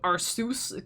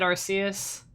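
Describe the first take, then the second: First: The ending sounds like "Zeus". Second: The ending does not sound like "Zeus". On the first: "it does kind of look like Zeus. And he's like the god of Pokemon, so Arceus" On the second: "I always said Arceus"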